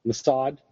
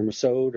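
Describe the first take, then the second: First: Mossad with an open "ah", muh-SAHD; first pronunciation. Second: Mossad with a long "oh", muh-SODE; alternative pronunciation. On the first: Podcaster unsure of the Israeli agency's name, Mossad said muh-SAHD. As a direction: say Mossad to rhyme with "odd". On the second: Podcaster offering another guess at the agency's name, Mossad said muh-SODE. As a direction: say Mossad to rhyme with "road". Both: Shown as a demonstration. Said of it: "however you pronounce the Israeli Special Forces".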